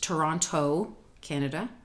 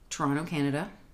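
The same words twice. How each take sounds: First: The city name is said slowly with every syllable clear. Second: The city name is said quickly with reduced syllables. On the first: The speaker calls it right. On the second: The speaker calls it wrong.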